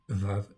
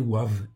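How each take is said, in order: First: The name begins with a V sound. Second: The name begins with a W sound. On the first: The speaker calls it wrong. "c'est pas le nom V en fait en réalité" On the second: The speaker calls it right. "ça se prononce Oua"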